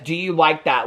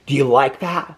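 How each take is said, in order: First: It is said in a plain, neutral voice. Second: It is said in a slow, creepy, leering voice. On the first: "it wasn't just that he says" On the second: "he said it like this. ... It was like very Silence of the Lambs"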